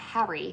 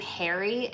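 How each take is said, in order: First: The name is said in a British accent. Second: The name is said in an American accent. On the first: The speaker calls it right. "but Harry sounds amazing" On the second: The speaker calls it wrong. "the name Harry in the U S sounds terrible"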